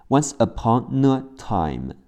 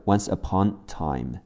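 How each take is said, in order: First: "upon a" joined as "upo-nuh" in "Once upon a time"; linked words. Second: "once upon time" with the "a" left out; dropped article. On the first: Teacher showing spoken linking, "upon a" joined as one. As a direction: run the N of "upon" into "a". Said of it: "once upon呢和后面的a会连起来". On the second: Teacher showing the reduced form, no "a" in "once upon time". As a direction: go straight from "upon" to "time", swallowing the "a". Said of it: "甚至会省去". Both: Shown as a demonstration.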